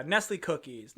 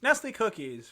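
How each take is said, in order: First: Said in the usual way. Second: NESTLE COOKIES pitched up like a slogan; mock ad read. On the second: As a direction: say Nestle Cookies as a pretend sponsor tagline. Repeats name as ad slogan.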